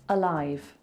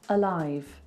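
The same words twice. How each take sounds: No difference in how they are said.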